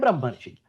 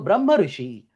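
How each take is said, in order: First: The two vowels merge into one syllable. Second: Both vowels are kept, with no merging. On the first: The vowel sandhi is applied. "if you do not have a Prakriti Bhava" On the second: The vowel sandhi is blocked. "when there is a Prakriti Bhava"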